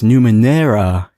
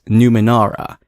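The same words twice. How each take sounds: First: The vowel before the R sounds like 'eh'. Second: The vowel before the R sounds like 'ah'. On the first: The speaker calls it right. "It's got an E, not an A" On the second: The speaker calls it wrong. "I thought it was Numenera"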